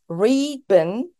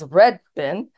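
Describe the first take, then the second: First: The vowel in red sounds like a long ee. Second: The vowel in red sounds like a short e. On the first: This is how local New Zealanders say it. "the way they pronounce it was, there is this reed bin" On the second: This is how the speaker learned to say it. "we would pronounce it as red bin"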